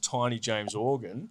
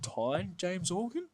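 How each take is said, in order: First: The first name is said with two syllables. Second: The first name is said with one syllable. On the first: The speaker calls it wrong. "introducing him as [name]" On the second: The speaker calls it right. "they don't pronounce the E on the end. It's just [name]"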